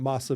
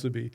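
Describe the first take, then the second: First: The first vowel sounds like 'ah'. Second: The first vowel sounds like 'oo'. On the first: The speaker calls it wrong. "you definitely sound like a Haole if you're calling it masabi" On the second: The speaker calls it right. "It's it's musubi"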